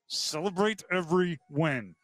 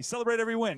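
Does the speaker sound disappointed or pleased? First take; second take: disappointed; pleased. First: It is said flatly, with a let-down tone. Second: It is said brightly, with a happy tone. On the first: The team did not play well. "And that meant we didn't play very well" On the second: The win really deserves celebrating. "all right, we actually should celebrate this one"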